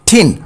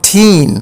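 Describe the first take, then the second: First: The vowel is short and clipped. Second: The vowel is long and drawn out. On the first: The speaker calls it right. "এটি short sound হবে" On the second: The speaker calls it wrong. "Not"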